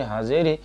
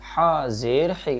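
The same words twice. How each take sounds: First: It is recited quickly and hurriedly. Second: It is recited at a calm, unhurried pace. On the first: The speaker calls it wrong. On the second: The speaker calls it right.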